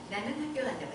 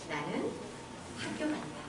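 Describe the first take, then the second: First: It is said plainly, without nasal colouring. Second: It is said with a sweet, nasal, drawn tone. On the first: The speaker calls it wrong. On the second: The speaker calls it right.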